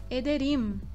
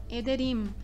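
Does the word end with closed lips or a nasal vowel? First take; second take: closed lips; closed lips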